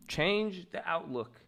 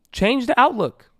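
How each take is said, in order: First: Slow, much softer delivery; hushed repeat. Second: Urging, pitched high. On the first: Coach letting the advice sink in, slow and soft. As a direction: let it sink in, slow and quiet. Repeats line slowly and softly. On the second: Coach urging listeners to change their view, high and insistent. Emphatic first take of repeated line. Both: Real, not acted.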